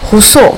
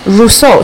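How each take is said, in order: First: The R is a French uvular sound. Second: The R is an American English R.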